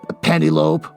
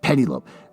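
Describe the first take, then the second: First: The name sounds like penny plus lope. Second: The name is said as pe-nel-o-pe. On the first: The speaker calls it wrong. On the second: The speaker calls it right.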